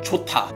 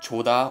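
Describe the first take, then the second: First: The middle consonant is a strong T sound. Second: The middle consonant is a soft D sound. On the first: The speaker calls it right. "makes the Digut sounds more like a T with a T sound, but more stronger" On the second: The speaker calls it wrong. "You might pronounce this as choda, but that'd be completely wrong"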